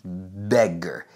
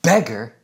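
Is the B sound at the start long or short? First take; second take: long; short. First: The B is long and tense. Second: The B is short and relaxed. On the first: The speaker calls it right. "increase the tension and duration of the B" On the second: The speaker calls it wrong. "It's not beggar"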